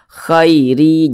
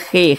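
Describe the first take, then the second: First: The vowel glides softly from a to i. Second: The vowel is a plain e sound. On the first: The speaker calls it right. "dibaca lunak saja mudah" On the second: The speaker calls it wrong. "jangan dibaca khe"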